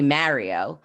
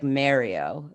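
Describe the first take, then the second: First: "Mario" in her real New York accent; New York pronunciation. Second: "Mario" with the New York accent held back; careful neutral pronunciation. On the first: Podcaster showing her co-host her actual voice, New York pronunciation. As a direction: say "Mario" as a New Yorker naturally would. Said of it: "if I was actually gonna say it". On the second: Podcaster trying to fix her accent, careful neutral pronunciation. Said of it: "I'm trying to be like Mario". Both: Shown as a demonstration.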